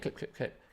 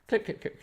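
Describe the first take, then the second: First: Whispered clicking. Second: High clicking. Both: Retold or imitated. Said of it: "making this noise".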